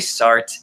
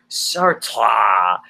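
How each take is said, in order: First: The name is pronounced in a plain, relaxed way. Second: The name is pronounced in an overdone, exaggerated way. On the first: The speaker calls it right. "calm down. Just say Sartre" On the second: The speaker calls it wrong. "he keeps pronouncing it really, he's like"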